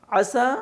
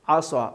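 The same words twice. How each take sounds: First: "عصا" high, said as light "asaa"; plain thin s in "عصا"; thin seen. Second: Heavy rounded s in "عصا"; thick saad. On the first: Teacher showing the difference, seen-like thin s. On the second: Teacher showing the difference, thickened saad. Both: Shown as a demonstration. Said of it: "دونوں فرق ہو رہا".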